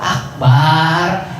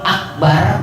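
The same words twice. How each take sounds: First: The second vowel is drawn out long. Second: The second vowel is kept short. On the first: It means a drum. The speaker calls it wrong. "artinya beduk" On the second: It means most great. The speaker calls it right. "baknya pendek artinya maha besar"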